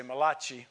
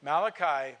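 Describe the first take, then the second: First: Malachi said as mah-LAH-chee, stress on the middle, ch as in church; Italian uncle's way of saying it. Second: Said in the usual way. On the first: Retold or imitated. Pastor recalls his Italian uncle saying Malachi, mah-LAH-chee. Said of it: "my Italian uncle used to say". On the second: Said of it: "my Italian uncle used to say Malachi".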